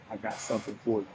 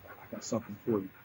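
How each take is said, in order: First: It is said in a plain, neutral way. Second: It is said in a menacing, threatening way.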